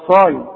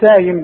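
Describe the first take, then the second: First: The first s sound is heavy and emphatic. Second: The first s sound is light and plain. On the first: The speaker calls it right. "انا ايه، صايم" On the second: The speaker calls it wrong. "مش سايم بقى"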